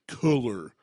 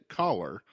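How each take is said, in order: First: The first vowel sounds like in 'cool'. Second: The first vowel sounds like in 'call'. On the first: The speaker calls it wrong. "people say, ... It's cooler" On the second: The speaker calls it right. "I pronounce it collar"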